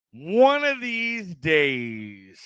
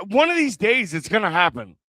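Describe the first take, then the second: First: ONE OF THESE DAYS, stretched very slowly; very slow, elongated musing; drawn-out repeat. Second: Said in the usual way. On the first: Real, not acted. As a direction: draw out every word, lingering on DAYS.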